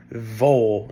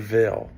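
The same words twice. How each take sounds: First: "Vole" for the ending -ville; reduced local "vul" sound in Vole. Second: "Ville" with a clear short i; full spelled-out "Ville" ending. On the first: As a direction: say "Vole" where Ville is written. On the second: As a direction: say "Ville" just as written. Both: Shown as a demonstration. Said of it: "Vole instead of Ville".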